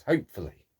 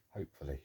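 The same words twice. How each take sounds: First: Said in the usual way. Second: Hopefully, much softer and lower, half to himself; Hopefully muttered low and soft; muttered under breath. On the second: Real, not acted. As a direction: echo it under your breath. Hopefully said then muttered again.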